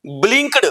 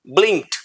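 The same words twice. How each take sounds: First: "ब्लिंक्ड" ending on a d sound; wrong pronunciation. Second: "ब्लिंक्ड" ending on a crisp t, blinkt; right pronunciation. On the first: Teacher showing the common mistake, "ब्लिंक्ड" with d. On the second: Teacher showing the correct "ब्लिंक्ड" ending in t. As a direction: close "ब्लिंक्ड" with a sharp t. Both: Shown as a demonstration. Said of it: "के के बाद टी लगा दिया".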